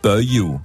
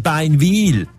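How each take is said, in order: First: The name is said in its local dialect form. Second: The name is said in its written, standard form. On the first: "das ist Böju" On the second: "oder Beinwil"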